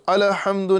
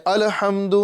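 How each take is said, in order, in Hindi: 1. l की आवाज़ गूंजती हुई उछाल के साथ छोड़ी जाती है। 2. l की आवाज़ गूंजती हुई उछाल के साथ छोड़ी जाती है।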